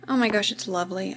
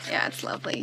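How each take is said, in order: First: Said in the usual way. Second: Whisper. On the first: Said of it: "that just gave it away". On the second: Real, not acted. Repeats answer softly.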